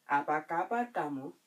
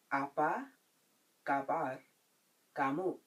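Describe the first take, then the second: First: Said in the usual way. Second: "Apa kabar kamu?" with long gaps between words. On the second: Shown as a demonstration. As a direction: give each word on its own for learners. Teacher breaks phrase up for learners.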